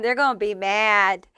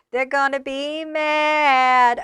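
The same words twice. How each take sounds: First: Said in the usual way. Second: Slow, sing-song they're gonna be mad; slow gloating drawl. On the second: Acted. Repeats the line drawn out.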